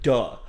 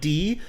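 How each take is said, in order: First: The letter is pronounced with a short 'uh'. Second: The letter is pronounced with a long 'ee'. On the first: The speaker calls it wrong. "like duh" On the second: The speaker calls it right. "not like D"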